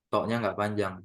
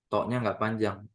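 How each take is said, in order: No difference in how they are said.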